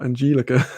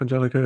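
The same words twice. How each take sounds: First: Angelica as an-JEE-li-ka; long EE in the middle of Angelica; wrong pronunciation. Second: Angelica as an-JEL-i-ka; short E in the middle of Angelica; right pronunciation. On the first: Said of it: "not Angelica". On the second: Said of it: "you're getting it right". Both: Shown as a demonstration.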